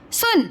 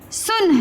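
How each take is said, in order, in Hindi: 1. स्वर छोटा रखा गया है। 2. स्वर छोटा रखा गया है।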